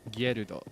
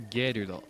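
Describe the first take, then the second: First: The name is said with Japanese pronunciation. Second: The same.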